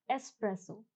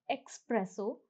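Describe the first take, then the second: First: "espresso" with a plain S, es-presso, no K sound; teacher gives the right form; correct pronunciation. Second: "espresso" said with a wrong KS, ex-presso; teacher shows the common mistake; wrong pronunciation. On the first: Teacher correcting students, es-presso with a plain S. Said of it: "the pronunciation is espresso". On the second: Teacher demonstrating a common mistake, ex-presso with a KS. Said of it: "the pronunciation is not espresso". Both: Shown as a demonstration.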